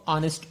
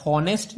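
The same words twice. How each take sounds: First: ऑनेस्ट said with a silent H; correct honest. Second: हॉनेस्ट said wrongly with a sounded H. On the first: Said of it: "ऑनेस्ट बोलते हैं". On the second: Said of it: "हॉनेस्ट नहीं बोलते हैं". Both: Shown as a demonstration.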